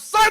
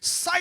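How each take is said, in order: First: It is shouted louder. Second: It is said at normal loudness.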